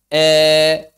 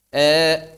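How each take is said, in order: First: The vowel leans fully toward an e sound. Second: The vowel leans slightly toward an e sound. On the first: "yang pertama berarti imalah" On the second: "kemudian taklil"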